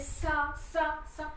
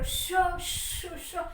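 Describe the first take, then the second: First: The sound is a hissing s. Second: The sound is a hushing sh. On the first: The speaker calls it wrong. "श को सा ही बोलती थी" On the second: The speaker calls it right. "श ऐसे करो"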